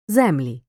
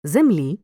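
First: Землі with stress on the first syllable, ЗЕмлі. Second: Землі with stress on the last syllable, землІ; stress on the ending. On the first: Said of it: "називного відмінка множини за наголосами". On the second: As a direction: lean on the final і of Землі. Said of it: "Розрізняй форми родового відмінка однини". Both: Shown as a demonstration.

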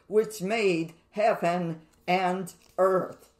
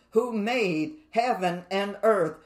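First: "made" leaned on, whole clause slowed right down; slow down and press hard on "made"; slow emphatic repeat. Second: Said in the usual way. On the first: Shown as a demonstration. Preacher drives home which made heaven and earth, slow and emphatic. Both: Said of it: "So we see this clause repeated".

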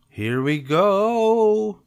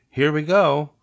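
First: High, loud, long-drawn GO; launching whoop. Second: High, loud, quick call; cheery send-off. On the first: Cub takes feet off pedals downhill, whooping. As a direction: stretch "go" into a rising yell. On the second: Cub sets off pedaling with new friend, cheery. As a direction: announce the start of a ride. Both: Acted.

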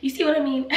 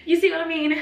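First: Tearful, high and loud; crying. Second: High, loud tearful plea; crying out the question. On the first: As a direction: voice breaking as she asks. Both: Real, not acted. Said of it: "ignore the fact that I'm crying".

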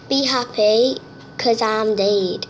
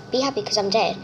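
First: Slow, drawn-out reading of "Be happy, 'cause I'm dead"; dramatic reading. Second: Said in the usual way. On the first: Shown as a demonstration. Reading a spooky poster aloud, slow and ominous. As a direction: read the poster like an ominous line. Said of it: "It says on the poster there". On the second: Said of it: "It says".

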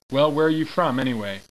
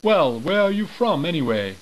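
First: Put-on sergeant voice, no accent. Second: High, loud British sergeant; British accent. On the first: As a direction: bark it like a sergeant without the British sound. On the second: Acted. British sergeant demanding where the soldiers come from, loud British accent. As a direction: put on a British accent and raise the voice on Well. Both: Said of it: "I should be doing this in a British accent".

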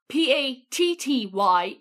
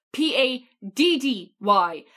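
First: Slow, letter by letter "P A T T Y"; spelled out. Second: Slow, emphatic "P A D D Y" with the D's stressed; spelled out. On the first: Irish guest correcting Americans, "P A T T Y" spelled out slowly. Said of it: "It's not P A T T Y". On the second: Irish guest giving the right spelling, "P A D D Y" slowly and pointedly. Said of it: "it's P A D D Y". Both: Shown as a demonstration.

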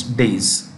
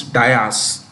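First: "days" as one long syllable; drawn-out "days", rhyming with "haze"; taught pronunciation. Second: "dais" said as DYE-as; two-part "dais", opening like "die"; common mispronunciation. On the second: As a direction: say "dais" with an eye vowel, two syllables. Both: Shown as a demonstration. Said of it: "pronunciation of a word that most people get incorrect".

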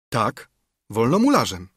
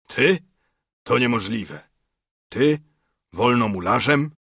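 First: Assured answer with a falling end; settled, affirmative reply; confirming. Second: Disbelieving questions, jumping up in pitch; rising, incredulous query. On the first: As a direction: confirm it simply and firmly. Narrator's firm answer to the doubt. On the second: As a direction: question it in acted astonishment. Acted disbelief at friend's claim. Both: A narrator's reading.

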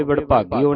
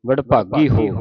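First: ਵਡਭਾਗੀ ਹੋ with the h lost, running into "o"; dropped h. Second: ਵਡਭਾਗੀ ਹੋ with a clear h in "ho"; sounded h. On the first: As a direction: demonstrate ਵਡਭਾਗੀ ਹੋ without its h. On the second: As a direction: stress the h in ਵਡਭਾਗੀ ਹੋ, louder. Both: Shown as a demonstration. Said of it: "ਹਾਹੇ ਦੀ ਆਵਾਜ਼ ਉਚਾਰਨ ਹੋਵੇ".

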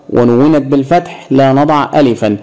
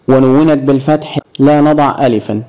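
No difference in how they are said.

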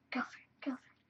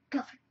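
First: Whisper. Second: Said in the usual way. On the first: Real, not acted.

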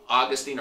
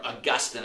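First: Put-on Augustine ending in a long "teen"; preferred pronunciation. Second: Augustine with stress on GUS, short ending; alternative pronunciation. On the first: Preacher naming the theologian his preferred way, Augustine said AW-gus-teen. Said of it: "I like to say Augustine". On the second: Preacher showing how some people say it, Augustine said uh-GUS-tin. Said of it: "as some people say". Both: Shown as a demonstration.

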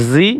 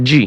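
First: "জি" said as "zee"; za sound. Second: "জি" said as "jee"; jeem sound. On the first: Teacher repeats the contrast, "জি" as zee. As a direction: buzz a z to begin "জি". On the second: Teacher repeats the contrast, "জি" as jee. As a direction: begin "জি" with an English j. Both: Shown as a demonstration. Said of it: "একটা উচ্চারণ ও প্রায় অন্যটার সাথে মিলে যায়".

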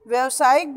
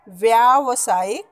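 First: व्यवसायिक with a short "vya"; wrong pronunciation. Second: व्यावसायिक with a long "vyaa"; correct pronunciation. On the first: Teacher shows pupils the impure form, short-vowel व्यवसायिक. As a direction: run quickly through the first syllable of व्यवसायिक. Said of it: "शुद्ध नहीं है". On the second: Teacher gives the pure pronunciation, long-vowel व्यावसायिक. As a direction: draw out the first syllable of व्यावसायिक. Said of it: "शुद्ध उच्चारण". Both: Shown as a demonstration.

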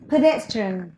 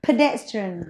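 No difference in how they are said.

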